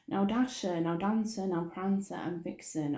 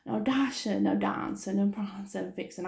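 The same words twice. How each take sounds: First: Said in the usual way. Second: Happy imitation. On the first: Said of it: "that wasn't very happy as well". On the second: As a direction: imitate someone calling the names happily. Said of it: "Tom actually said it really sort of happy".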